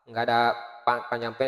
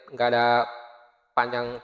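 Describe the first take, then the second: Both takes have the same delivery.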